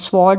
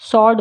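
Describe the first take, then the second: First: The w sound is pronounced. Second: The w sound is silent. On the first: The speaker calls it wrong. "स्वॉर्ड नहीं बोलते हैं" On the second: The speaker calls it right. "स्वॉर्ड बोलते हैं"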